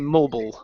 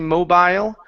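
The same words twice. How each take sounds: First: The word is said with an American accent. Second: The word is said with a British accent. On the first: "United States, we say mobile" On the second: "in England, they tend to say mobile"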